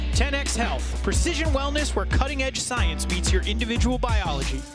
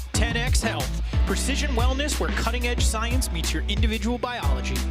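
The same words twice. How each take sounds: The two takes are said the same way.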